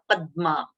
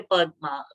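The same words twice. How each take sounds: First: Padma with a short first syllable and held d; "Padma" said as "pad-dma"; with pressure. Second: Padma with an open first vowel and a light, undoubled d; "Padma" without the held consonant; no pressure. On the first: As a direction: press the middle consonant of Padma. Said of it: "we are giving a pressure". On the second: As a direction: say Padma loosely, gliding through the middle. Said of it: "We don't say Padma". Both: Shown as a demonstration.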